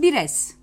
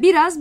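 First: The last syllable has an 'e' vowel. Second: The last syllable has an 'a' vowel.

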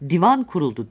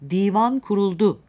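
First: The vowels in divan are said short. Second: The vowels in divan are said long. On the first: A sofa was set up. The speaker calls it wrong. "sedirden söz etmiş oluruz" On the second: A council of statesmen was convened. The speaker calls it right. "devlet adamlarının oluşturduğu bir meclisten söz edeceksek"

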